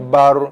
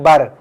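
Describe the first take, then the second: First: The r is pronounced heavy and full. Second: The r is pronounced light and thin. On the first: The speaker calls it right. "tebal bunyi macam mana?" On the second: The speaker calls it wrong. "Kalau nipis"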